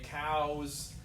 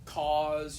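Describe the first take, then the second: First: The vowel glides as an 'ow' diphthong. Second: The vowel is one single short sound. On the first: The speaker calls it wrong. "you want to say cows" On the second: The speaker calls it right. "just one vowel sound"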